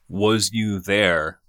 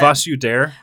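First: It is said in a plain English accent. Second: It is said in a mock German accent.

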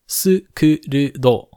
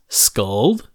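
First: The name has three syllables with vowels between consonants. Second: The name has one syllable with clustered consonants. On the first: "her name is written in katakana as Skurudo" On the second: "it could be turned into English as Skuld"

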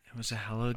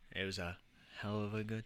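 First: It is said much louder. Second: It is said at a normal volume.

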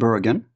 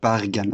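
First: It is pronounced the English way. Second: It is pronounced the Norwegian way.

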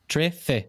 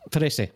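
First: The middle consonant is a lisped 'th' sound. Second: The middle consonant is a plain 's' sound. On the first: This is how Spaniards say it. "You're doing the tongue against the two teeth" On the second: This is how Latin Americans say it. "They don't lisp on the S sound"

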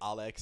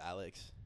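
First: The name is said with a foreign accent. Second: The name is said without a foreign accent. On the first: This imitates how someone else says the name. "he says like Alex" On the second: This is the usual way to say the name. "instead of Alex"

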